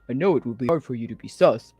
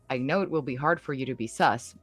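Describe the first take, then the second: First: It is said in an imitated voice. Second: It is said in a normal voice.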